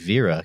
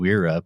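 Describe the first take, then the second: First: The name begins with a V sound. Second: The name begins with an English W sound. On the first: This is how the German company itself says it. The speaker calls it right. "but it's actually Vera because it's a German company" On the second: This is how people locally tend to say it. The speaker calls it wrong. "we call them Wera"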